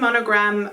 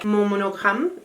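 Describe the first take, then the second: First: The word is said with an American pronunciation. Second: The word is said with a non-American pronunciation. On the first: "I'm gonna say it the um, American way" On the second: "even though it's how it should be pronounced"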